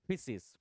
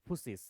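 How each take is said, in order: First: The first vowel sounds like 'i'. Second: The first vowel sounds like 'u'. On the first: "उस वर्ड को फिसिस कहते थे।" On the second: "बहुत लोग इसका प्रोनाउंसिएशन जो है वो फिसिस न करके फुसिस भी करते हैं।"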